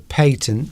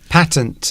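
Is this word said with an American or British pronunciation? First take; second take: British; American. First: The word is said with a British pronunciation. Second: The word is said with an American pronunciation. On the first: "We say patent because we're posh" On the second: "they would pronounce it in America"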